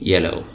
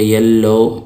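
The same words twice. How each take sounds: First: The middle L sound is short, single. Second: The middle L sound is held long, doubled. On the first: The speaker calls it right. "उसकी आवाज़ एक ही हर्फ की होती है" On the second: The speaker calls it wrong. "ऐसा नहीं होगा कि हम उसको पढ़ेंगे येलो"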